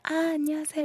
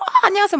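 First: The greeting is said quietly and cautiously. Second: The greeting is said loudly and excitedly.

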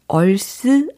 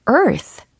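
First: It ends with a Korean-style 'seu' syllable. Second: It ends with an English 'th' sound. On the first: The speaker calls it wrong. "얼스 아니고" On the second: The speaker calls it right. "아니고 earth, 이렇게 해주시면 되겠죠"

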